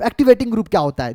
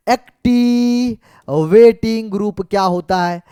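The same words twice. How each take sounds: First: Said in the usual way. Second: Very slow, syllables stretched out; slow dictation. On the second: Shown as a demonstration. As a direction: draw it out as if writing each syllable. Repeats it slowly while writing. (लिखते हुए खींच-खींच कर, बहुत धीरे)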